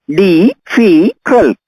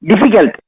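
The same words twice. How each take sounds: First: "Difficult" very slow, each syllable apart; syllables spelled out. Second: Said in the usual way. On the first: Shown as a demonstration. Teacher counting syllables for the class, very slowly. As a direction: break "Difficult" into its beats. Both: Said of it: "Three syllables".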